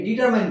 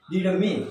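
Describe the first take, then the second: First: ডিটারমাইন ending in "main"; ডিটারমাইন with a long i glide; common mispronunciation. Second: ডিটারমিন ending in "min"; ডিটারমিন, no "mine" sound; correct pronunciation. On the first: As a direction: say ডিটারমাইন to rhyme with mine. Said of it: "আমরা এটাকে ডিটারমাইন বলি". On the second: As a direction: say ডিটারমিন with short i at the end. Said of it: "এর উচ্চারণ হবে". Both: Shown as a demonstration.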